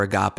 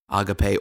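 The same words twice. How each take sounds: First: Agape said as uh-GAHP, stress on the middle; church pronunciation. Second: Agape said the Greek way, ah-gah-PAY; Greek pronunciation. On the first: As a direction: say agape in two syllables, uh-GAHP. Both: Shown as a demonstration. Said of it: "as some churches call".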